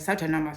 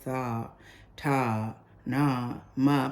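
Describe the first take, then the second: First: The syllables are run together quickly. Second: The syllables are said slowly and apart. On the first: "Some people are going" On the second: "I have a very slow one"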